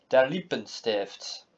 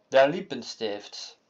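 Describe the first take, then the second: No difference in how they are said.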